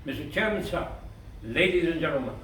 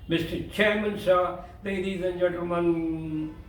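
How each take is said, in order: First: "Mister Chairman," rising, a short crisp stop, "sir," a crisp stop, then "ladies and gentlemen" falling; crisp, measured address with sharp breaks; sharp pauses. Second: Dragged, lingering address with no clean pauses; wrong: dragged pauses. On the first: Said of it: "Let your pauses be sharp". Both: Shown as a demonstration.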